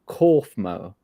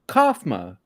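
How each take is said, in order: First: The first vowel is an 'or' sound. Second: The first vowel is not an 'or' sound. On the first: The speaker calls it right. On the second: The speaker calls it wrong.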